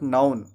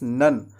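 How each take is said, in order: First: The vowel is a gliding 'ow' sound. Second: The vowel is a short 'uh' sound. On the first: The speaker calls it wrong. "It's not नाउन" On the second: The speaker calls it right. "It's नन"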